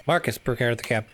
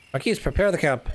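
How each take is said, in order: First: Said in the usual way. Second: Marquis said as "mar-KEE", the wrong name; misread name. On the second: Shown as a demonstration. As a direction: Marquis read aloud by mistake like the title marquis.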